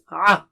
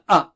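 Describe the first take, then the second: First: It comes from a squeeze mid-throat. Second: It starts with a sharp glottal catch. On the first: The speaker calls it right. "No, it is a" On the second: The speaker calls it wrong. "Not like hamza"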